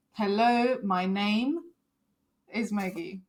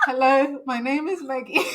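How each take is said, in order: First: Choppy drill with pauses after "Hello" and "name"; inflection drill. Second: Stiff loud greeting. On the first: Shown as a demonstration. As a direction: say "Hello, my name is Maggie" in pieces, each dropping off. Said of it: "so you work on your inflection". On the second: Retold or imitated. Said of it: "and I'm like".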